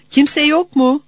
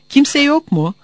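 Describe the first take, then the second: First: Louder, higher call through the window. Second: Loud call into the empty farm. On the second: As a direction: call out, is anyone here. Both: A narrator's reading.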